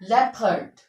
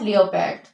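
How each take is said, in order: First: The o is silent: lep-ard, two syllables. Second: The o is sounded: lee-oh-pard, three syllables. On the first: The speaker calls it right. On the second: The speaker calls it wrong.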